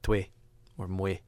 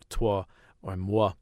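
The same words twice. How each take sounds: First: It uses the local Quebec pronunciation. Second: It uses the standard French pronunciation. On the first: "we say toi or moi" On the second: "instead of saying"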